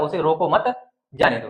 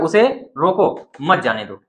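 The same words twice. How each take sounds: First: The pause comes after 'मत'. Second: The pause comes after 'रोको'.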